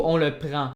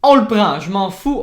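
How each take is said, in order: First: Said in the usual way. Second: Loud, higher, eager on le prend; excited grab. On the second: Real, not acted. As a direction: seize it with glee. Trouve le son Toy Train. (on le prend lancé fort et aigu)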